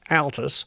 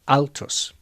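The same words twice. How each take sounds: First: The name is said with an English accent. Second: The name is said with a Spanish accent.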